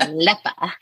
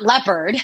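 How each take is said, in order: First: "Aleppa" with the R and D dropped; accented pronunciation. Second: Said in the usual way. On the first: Shown as a demonstration. Daughter demonstrating mom's accented word, "Aleppa" ending in "uh". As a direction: say "Aleppa" for leopard, ending in an open "uh". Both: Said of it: "not leopard".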